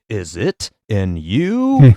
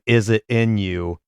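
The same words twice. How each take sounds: First: Drawn out, slow retake. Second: Said in the usual way. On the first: Retold or imitated. Retelling Jordan's struggling Gatorade take, very slow. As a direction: drag the tagline out slowly. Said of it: "not able to get it right". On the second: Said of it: "him saying".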